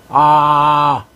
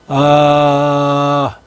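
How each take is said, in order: First: The vowel is pushed with a tense, strained throat. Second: The vowel is relaxed, low, and resonates in the chest. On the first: The speaker calls it wrong. "목이나 주변에 흔히 힘준다 그러죠. 그거는 이렇게 소리가 나요" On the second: The speaker calls it right. "가슴에서 진동한다는 느낌, 뭔가 축 처지는 느낌. 그러면서 진성을 쓰는 거예요"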